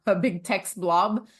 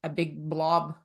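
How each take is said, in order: First: Slow words with a real laugh at the start. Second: Said in the usual way. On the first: Real, not acted. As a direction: laugh as you correct yourself, slowly.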